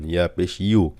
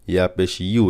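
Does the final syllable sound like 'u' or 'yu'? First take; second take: yu; yu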